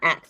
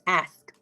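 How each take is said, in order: First: The word ends with a ks sound. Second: The word ends with an sk sound. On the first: This is the slang form. The speaker calls it wrong. "No, it's not ax" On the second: This is the proper English form. The speaker calls it right. "It's ask"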